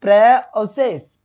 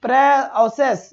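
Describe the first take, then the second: First: प्रोसेस said very slowly with a clear "au" sound; teacher slowly showing the correct sound; right vowel. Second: प्रोसेस stretched very slowly with an "e-a" vowel; drawn-out wrong example of प्रोसेस; teacher slowly showing a wrong sound. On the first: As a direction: stretch प्रोसेस with an open "au" vowel. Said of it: "ये औ की sound दे रहा है". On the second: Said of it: "ये भी answer नहीं होगा". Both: Shown as a demonstration.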